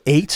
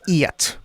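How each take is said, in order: First: It is said in a plain American accent. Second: It is said in an imitated Irish accent.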